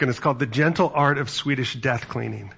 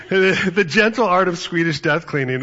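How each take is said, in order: First: Said in the usual way. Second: The Gentle Art of Swedish Death Cleaning said louder and higher, savoring "Gentle"; relishing the title. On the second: Real, not acted. Preacher repeating the odd book title to the congregation, louder and savoring. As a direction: lean into the title like a punchline.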